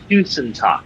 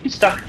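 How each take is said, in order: First: The two words are said slowly and separately. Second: The two words are said fast as one word. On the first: The speaker calls it wrong. "It's not tusen tak" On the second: The speaker calls it right. "they also say it quicker, like so"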